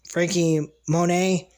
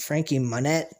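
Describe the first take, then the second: First: The surname ends without any T sound. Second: The surname ends with a clear T sound. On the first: The speaker calls it right. "It's just Frankie Monet" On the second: The speaker calls it wrong. "I keep pronouncing it Frankie Monette because of the T"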